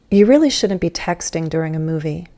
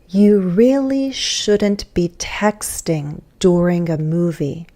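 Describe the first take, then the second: First: The sentence is spoken fast. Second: The sentence is spoken slowly. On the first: "go back to fast speech then" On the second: "Saying number five slowly"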